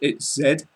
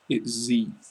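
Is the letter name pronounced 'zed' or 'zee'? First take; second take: zed; zee. First: The letter is said as zed, British style. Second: The letter is said as zee, American style.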